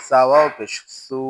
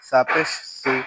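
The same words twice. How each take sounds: First: সু with a long u; সু held long; stretched vowel. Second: সু with a short u; no stretch. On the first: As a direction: draw out the vowel of সু. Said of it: "ওয়াও থাকলে টান দিব". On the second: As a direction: cut the vowel of সু short. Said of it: "আমরা টান দিব না". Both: Shown as a demonstration.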